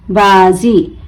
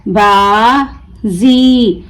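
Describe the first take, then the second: First: Said in the usual way. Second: बाजी very slow, "baa", pause, long "zee"; broken into syllables. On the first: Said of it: "मिलाकर पढ़ें". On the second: Shown as a demonstration. Teacher breaking the word for learners, बाजी stretched as baa... zee. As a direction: draw out बाजी as two separate syllables with a z. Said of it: "तोड़ तोड़ कर पढ़ूंगी".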